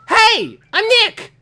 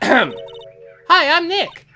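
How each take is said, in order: First: It is said at a loud volume. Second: It is said at a quiet volume.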